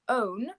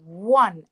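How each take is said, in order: First: The word begins with a vowel sound. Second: The word begins with a w sound. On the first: The speaker calls it wrong. "We don't say own" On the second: The speaker calls it right. "We say one, and so the first sound we hear is a w"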